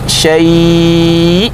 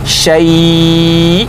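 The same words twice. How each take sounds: Both takes have the same delivery.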